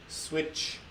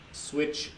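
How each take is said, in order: Both takes have the same delivery.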